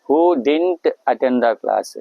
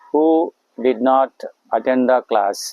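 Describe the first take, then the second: First: "Did not" is merged into one word, "dint". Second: "Did not" is said as two full words.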